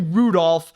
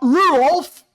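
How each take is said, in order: First: The D sound in the name is pronounced. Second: The D sound in the name is dropped. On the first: "it's not really Rudolph" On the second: "You don't pronounce the the D right there"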